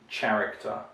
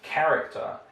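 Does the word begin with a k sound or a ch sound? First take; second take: ch; k. First: The word begins with a ch sound. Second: The word begins with a hard k sound. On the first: The speaker calls it wrong. "It's not pronounced as character" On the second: The speaker calls it right. "So here it's character"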